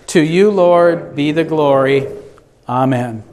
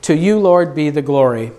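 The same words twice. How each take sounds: First: Many voices in unison. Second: Said in the usual way. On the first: Acted. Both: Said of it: "let us say".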